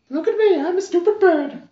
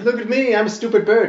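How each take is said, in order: First: It is said in a high fake bird voice. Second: It is said in his normal voice.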